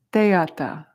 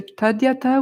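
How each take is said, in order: First: "teata" opening on tay, no d; Tibetan pronunciation. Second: "tadyata" with the d sounded before ya; Sanskrit pronunciation. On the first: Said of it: "more of the Tibetan sound". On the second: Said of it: "which is more correct Sanskrit". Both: Shown as a demonstration.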